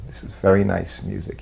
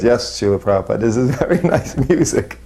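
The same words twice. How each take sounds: First: Said in the usual way. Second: Higher retold agreement breaking into a laugh; eager agreement. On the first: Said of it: "so finally he said". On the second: Disciple afraid of saying wrong thing, laughing eager agreement. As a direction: imitate your own too-quick yes, laughing. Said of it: "then of course I was".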